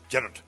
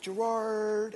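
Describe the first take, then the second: First: It is said in a Scottish accent. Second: It is said in an American accent.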